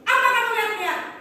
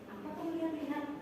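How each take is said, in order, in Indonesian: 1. Diucapkan dengan kasar dan garang. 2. Diucapkan dengan pelan dan lembut. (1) "ibu ulangi antagonis" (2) "Lebih lembut"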